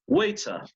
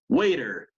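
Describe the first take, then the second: First: It is said with a British accent. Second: It is said with an American accent. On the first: "British English" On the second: "American English"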